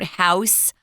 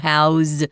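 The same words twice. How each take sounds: First: The word ends with a hissing S sound. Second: The word ends with a buzzing Z sound. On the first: The speaker calls it wrong. "not an S. You don't house" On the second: The speaker calls it right. "pronounced with a Z sound"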